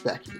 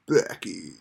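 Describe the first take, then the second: First: The name is said in a plain way. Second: The name is said in a scary way. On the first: The speaker calls it wrong. "Sorry, I wanted to put kind of a scary spin on that" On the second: The speaker calls it right. "kind of a scary spin on that, like"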